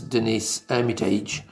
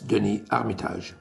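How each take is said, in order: First: The name is said with an English pronunciation. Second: The name is said with a French pronunciation. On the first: The speaker calls it wrong. "As I think the English spoken people maybe will pronounce his name as" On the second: The speaker calls it right. "with my lovely French accent"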